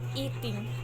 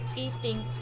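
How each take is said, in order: Both takes have the same delivery.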